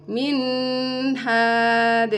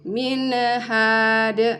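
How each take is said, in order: First: The n is held with a nasal hum. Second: The n is bounced with a small release. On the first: "tidak boleh didengungkan" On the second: "nun sukunnya tidak boleh dipantulkan"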